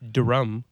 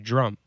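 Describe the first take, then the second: First: It begins with a clear D-R sound. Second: It begins with a J-R sound. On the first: "you don't say drum" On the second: "you say drum"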